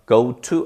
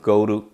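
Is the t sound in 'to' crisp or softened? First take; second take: crisp; softened. First: The t in 'to' is fully and crisply pronounced. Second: The t in 'to' is softened and linked smoothly. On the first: The speaker calls it wrong. "아니가" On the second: The speaker calls it right. "더 연음시켜서 T나 D 발음이 reduction phenomenon"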